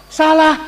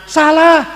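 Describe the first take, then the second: Both takes have the same delivery.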